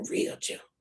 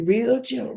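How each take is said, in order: First: Unvoiced soft real gentle; real gentle, whispered; whispered gently. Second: Said in the usual way. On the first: Shown as a demonstration. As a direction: breathe real gentle almost silently. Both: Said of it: "you're gonna be just gently".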